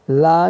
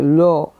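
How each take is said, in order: First: ला with an open AA instead of O; mistaken AA vowel. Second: लो with a rounded O, not AA; correct O vowel. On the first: Teacher showing the mistake to avoid, open AA in ला. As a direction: say ला with a wide AA. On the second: Teacher correcting the mistake, rounded O in लो. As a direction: say लो with a long O. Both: Shown as a demonstration. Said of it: "ला नहीं".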